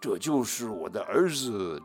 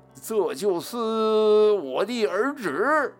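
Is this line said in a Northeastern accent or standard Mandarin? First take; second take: standard Mandarin; Northeastern accent. First: It is said in standard Mandarin. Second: It is said loudly in a Northeastern accent.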